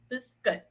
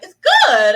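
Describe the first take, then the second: First: It sounds plainly content and satisfied. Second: It sounds reluctant, with extra emphasis on good.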